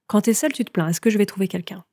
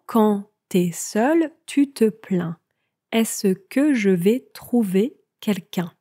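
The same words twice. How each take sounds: First: The sentence is spoken at a faster pace. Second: The sentence is spoken at a slower pace.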